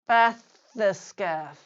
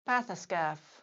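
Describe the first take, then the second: First: The word is said slowly and drawn out. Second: The word is said at normal conversational speed. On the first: "once slowly" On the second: "then at normal speed"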